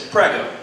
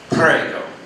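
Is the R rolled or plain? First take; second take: plain; rolled. First: It has a plain R, said normally. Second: It has a rolled R, sounding sexy.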